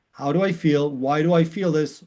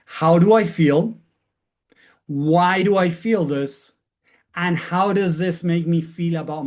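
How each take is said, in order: First: Said in the usual way. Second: Slow and weighty, each question left hanging; slow, deliberate questions. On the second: Shown as a demonstration. Teacher modelling the questions for students, slow and deliberate. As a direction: ask yourself slowly, letting it land. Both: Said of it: "wanna share them with you to start practicing".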